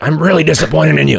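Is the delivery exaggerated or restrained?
exaggerated. The line is said in an exaggerated, cartoonish way. The disappointment comes across clearly. The speaker calls it right. "this guy wants a cartoon"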